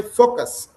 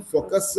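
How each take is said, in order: First: "focus" ending cleanly on s, no added vowel; correct pronunciation. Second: "focus" with an extra uh after the final s; wrong pronunciation. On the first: Teacher modelling for a learner, "focus" pronounced with no trailing uh. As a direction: stop "focus" right on its final consonant. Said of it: "you should say focus". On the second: Teacher correcting a learner, "focus" mispronounced with a trailing uh. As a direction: tack a short vowel onto the end of "focus". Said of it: "Instead of saying focus". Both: Shown as a demonstration.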